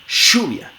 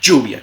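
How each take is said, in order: First: The ll is a voiceless sh-like fricative. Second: The ll is a voiced j-like affricate. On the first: This is how people from the Southern Cone say it. "como fricativa postal veolar sorda" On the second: This is roughly how it is said in Colombia. "africada postalveolar sonora"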